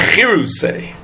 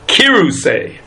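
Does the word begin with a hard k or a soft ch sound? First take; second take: soft ch; hard k. First: The word begins with a raspy ch sound. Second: The word begins with a hard k sound. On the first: The speaker calls it wrong. "not Chiruseh" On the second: The speaker calls it right. "it gets a dagesh, it gets a dot in it, and it should be pronounced Chiruseh"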